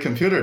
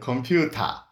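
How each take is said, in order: First: It is said with standard English pronunciation. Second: It is said with a Japanese accent.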